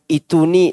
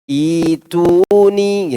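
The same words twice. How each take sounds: First: The first vowel is cut short. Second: The first vowel is drawn out long. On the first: The speaker calls it wrong. "bukan ituni" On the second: The speaker calls it right. "tapi ituni gitu. Iya, dua harakat"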